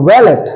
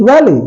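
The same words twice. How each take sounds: First: Wallet as "val-et", T sounded; wrong pronunciation. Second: Valley as "val-e", no T; silent final T. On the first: Teacher showing valet done wrong, wrong pronunciation. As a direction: close wallet on a T. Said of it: "it's not wallet". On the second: Teacher giving valet's correct form, silent final T. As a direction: stop valley on the open vowel. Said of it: "stop at the sound of T". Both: Shown as a demonstration.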